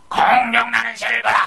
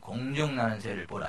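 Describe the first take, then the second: First: It is shouted loudly in a strained voice. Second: It is spoken calmly in a dignified voice. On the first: The speaker calls it wrong. "막 찢어지는 목소리로 막 고래고래 소리 질렀겠어요?" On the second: The speaker calls it right. "이렇겠지. 근데 그렇게 점잖게 한마디 했는데"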